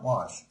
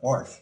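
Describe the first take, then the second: First: No r sound is heard before the sh. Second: An r sound is added before the sh. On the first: The speaker calls it right. "not wash" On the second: The speaker calls it wrong. "It just comes out wash"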